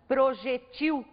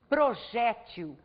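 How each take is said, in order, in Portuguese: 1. A tônica cai na última sílaba. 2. A tônica cai na penúltima sílaba. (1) "também pode ser pronunciada projetil" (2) "como se ela fosse uma palavra paroxítona"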